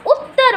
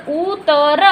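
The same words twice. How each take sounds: First: "Uttar" as one word, the doubled त held and hit; "Uttar" said quickly with a firm geminate त; stressed double त. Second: "उतर" sounded out letter by letter, u, ta, ra, with one unstressed त; slow "उतर", no doubling of the त; single-consonant pronunciation. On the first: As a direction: lean on the त्त in "Uttar", syllables joined. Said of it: "जोर देकर बोल रहे हैं". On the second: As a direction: slowly separate "उतर" into three open syllables. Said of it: "ऐसे बोलेंगे हम". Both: Shown as a demonstration.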